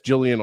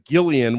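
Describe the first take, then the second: First: The name begins with a soft J sound. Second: The name begins with a hard G sound. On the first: The speaker calls it wrong. "she gets Jillian all the time" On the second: The speaker calls it right. "with a hard G"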